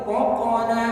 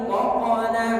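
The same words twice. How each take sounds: No difference in how they are said.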